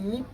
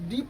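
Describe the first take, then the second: First: The word begins with a nasal 'ng' sound. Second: The word begins with a 'd' sound. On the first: The speaker calls it right. "नीप पढ़ेंगे" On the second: The speaker calls it wrong. "डीप नहीं पढ़ेंगे"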